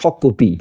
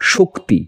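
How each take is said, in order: First: A vowel separates the k and t sounds. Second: The k and t sounds are joined directly. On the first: A vowel is added for the needs of meter. "শব্দটিকে বললাম শকতি" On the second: This is the original form of the word. "মূল শব্দটা কি? শক্তি।"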